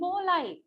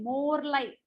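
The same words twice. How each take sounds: First: The r in 'more' is silent. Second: The r in 'more' is pronounced. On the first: The speaker calls it right. "Supposed to be more like. More. R is silent" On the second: The speaker calls it wrong. "Typical Indian"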